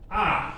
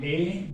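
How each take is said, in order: First: The letter is said with German pronunciation. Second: The letter is said with English pronunciation. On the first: "But they say A" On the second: "Here would have been A"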